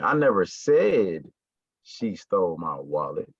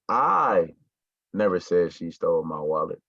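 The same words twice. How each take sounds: First: The stress falls on the word said. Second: The stress falls on the word I. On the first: It was only hinted at, not said. "I may have alluded to it, I may have hinted towards it, but I never said it" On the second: Someone else said it. "So that means that I didn't say it, but one of y'all said it"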